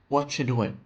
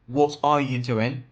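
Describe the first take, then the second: First: The words blend together with reduced sounds. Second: Each word is said separately and fully. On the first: "native speakers say" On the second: "Word by word"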